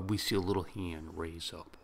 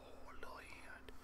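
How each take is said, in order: First: Said in the usual way. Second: A hushed, breathy whisper of delight; soft awed whisper at the tiny hand. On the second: Retold or imitated. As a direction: whisper it like it's too cute to say aloud. Whispered echo of the narration.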